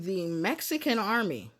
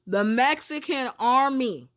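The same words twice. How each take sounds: First: It is said at a normal volume. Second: It is said noticeably louder.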